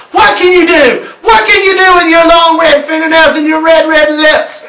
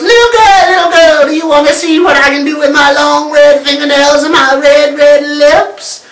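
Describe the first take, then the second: First: Higher, louder brave challenge; little girl shouting back at the witch; defiant shout. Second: Much higher, louder witch croon; high, loud sing-song witch. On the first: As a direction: throw the witch's words back at her. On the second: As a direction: lure her like a wicked witch. The witch at the door again. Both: Acted.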